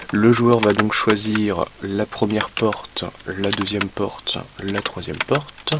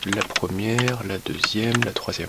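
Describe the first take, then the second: First: Very slow, spelling it out while writing; slow dictation. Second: Said in the usual way. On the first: Real, not acted. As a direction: drag each word as you write it down. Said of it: "slow dictation while writing". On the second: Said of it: "repeated at normal pace".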